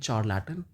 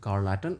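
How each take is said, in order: First: The word begins with a ch sound. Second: The word begins with a k sound. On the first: "ना तो आप इसको बोलेंगे चार Layton" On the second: "ना तो आप इसको बोलेंगे कार्ल लैटन"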